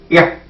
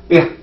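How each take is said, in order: No difference in how they are said.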